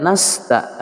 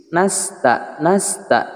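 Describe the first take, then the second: First: Nasta with a heavy, back-of-tongue s; slow nasta with a thick s, wrongly; thick sin. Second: Nasta with a thin, tongue-tip s; thin sin. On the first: Teacher showing students the wrong thick nasta. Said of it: "tidak nasta". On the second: Teacher showing students the thin sin in nasta. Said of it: "sin tipis". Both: Shown as a demonstration.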